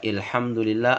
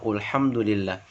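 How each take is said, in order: First: The first vowel sounds like 'i'. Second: The first vowel sounds like 'u'. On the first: "bukan dibaca ilhamdulillah" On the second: "atau ulhamdulillah"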